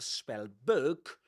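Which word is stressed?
book. The stress falls on the word book. The speaker calls it wrong. "This is not a spell book"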